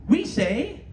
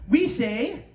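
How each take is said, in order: Both takes have the same delivery.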